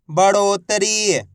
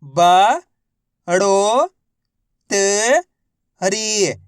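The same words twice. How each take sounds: First: Said in the usual way. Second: Each syllable drawn out slowly. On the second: Shown as a demonstration. Teacher sounding out a word for children, syllable by syllable. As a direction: spell out every syllable slowly. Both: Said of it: "तो मिलके बन जाएगा".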